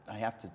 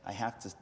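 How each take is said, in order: Both takes have the same delivery.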